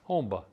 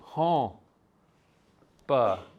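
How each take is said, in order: First: It is said fast, with an m sound. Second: It is said slowly, syllable by syllable, without an m. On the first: "But if I say it fast" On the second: "If I say it slow"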